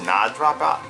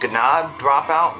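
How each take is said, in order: First: The first word starts with an N sound. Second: The first word starts with a hard G sound. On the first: "maybe the G silent" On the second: "I don't know if I'm saying this right"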